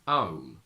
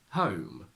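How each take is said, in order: First: The word starts without an h sound. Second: The word starts with an h sound.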